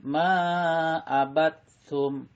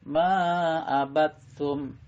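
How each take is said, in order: No difference in how they are said.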